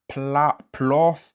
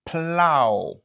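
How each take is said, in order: First: It ends in an f sound. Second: It ends in an open ow vowel. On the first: The speaker calls it wrong. "Ni se pa plof" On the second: The speaker calls it right. "se kon sa l prononse"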